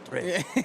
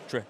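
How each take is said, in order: First: It is said with a French accent. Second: It is said with a plain English accent. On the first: "with a French accent, it becomes Trey" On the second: "it'd be Trey"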